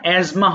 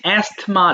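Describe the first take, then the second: First: The word is said with a z sound. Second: The word is said with an s-th sound. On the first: The speaker calls it right. "উচ্চারণটা অ্যাজমা হবে" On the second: The speaker calls it wrong. "বানানটা English অ্যাস্থমা আছে"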